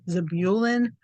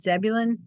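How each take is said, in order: First: The name is said in a formal, official-sounding way. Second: The name is said in a plain, casual way. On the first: This is how a recorded reading says the name. "my audio Bible thinks it's Zebulun, which sounds a lot more official" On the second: This is how the name is usually said personally. "I always pronounce it Zebulun"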